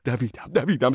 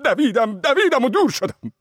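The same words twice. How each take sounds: First: Said in the usual way. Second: Much higher, louder urgent running; breathless flight. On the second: A narrator's reading. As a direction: pitch it up as he flees faster. Fleeing faster, voice climbs.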